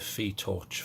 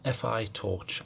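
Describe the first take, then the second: First: The name is said as a single syllable. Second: The name is spelled out as two letters. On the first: "or the Phi torch" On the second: "I'm going to call it the F I torch"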